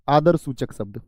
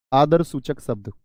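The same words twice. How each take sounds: The two takes are said the same way.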